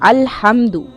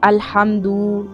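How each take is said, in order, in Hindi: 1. आखिरी 'du' स्वर छोटा रखा जाता है। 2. आखिरी 'du' स्वर लंबा खींचा जाता है।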